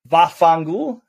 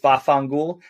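First: The word is said in full, ending in -culo. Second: The word is clipped, ending in -gul.

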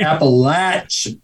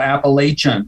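First: The middle syllable sounds like latch. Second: The middle syllable does not sound like latch. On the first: This is how people from the region say it. The speaker calls it right. "Latch. Just remember latch" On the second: This is how outsiders reading it phonetically say it. The speaker calls it wrong. "They read it and go Appalachian"

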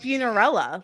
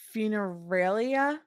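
First: The ending rhymes with Cinderella. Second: The ending rhymes with malaria. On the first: "like Cinderella" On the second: "Maybe it rhymes with malaria?"

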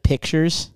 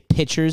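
First: The word is said with every sound clearly enunciated. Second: The word is said loosely, without careful enunciation. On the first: The speaker calls it right. "instead of pictures" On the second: The speaker calls it wrong. "when people say pictures"

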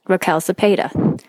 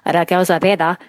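First: It is said with a plain American accent. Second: It is said with a Spanish accent.

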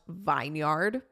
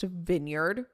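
First: The first vowel is a long 'eye' sound. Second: The first vowel is a short 'i' sound. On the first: It follows the spelling. "Why the fuck is it not pronounced Vineyard?" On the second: It is the usual pronunciation. "Why is it pronounced Vineyard?"

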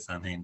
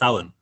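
First: The middle is said with an M and H. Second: The middle is said with a W sound. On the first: The speaker calls it wrong. "if you looked at it directly and you pronounced it, you would say" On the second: The speaker calls it right. "but it's"

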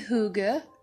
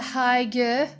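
First: It is pronounced in a Danish way. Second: It is pronounced in an anglicized way. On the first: The speaker calls it right. "it's actually hygge in Danish" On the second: The speaker calls it wrong. "I used to call it hygge"

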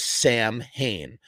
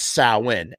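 First: The word is said as 'sam-hayn', the way it is spelled. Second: The word is said as 'sow-in', unlike the way it is spelled. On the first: The speaker calls it wrong. "a festival known as Samhain" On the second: The speaker calls it right. "but it's pronounced Samhain"

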